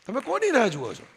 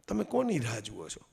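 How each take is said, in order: First: Higher, full voice, કોની hit hard then falling; pointed challenge. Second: Low musing. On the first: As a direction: throw the question straight at the audience. (ઊંચા અવાજે સીધો પડકાર) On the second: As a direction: murmur the question to yourself. (ધીમા, નીચા અવાજે વિચારતો પ્રશ્ન) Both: Shown as a demonstration.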